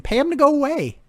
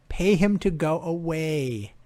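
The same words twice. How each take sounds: First: High, loud exasperated outburst; mock-frustrated shout. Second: Said in the usual way. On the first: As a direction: yell it at the team owners. Exasperated with the coach.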